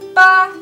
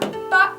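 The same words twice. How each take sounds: First: It is said with the first tone. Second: It is said with the fourth tone. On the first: It means the number eight. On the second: It means dad.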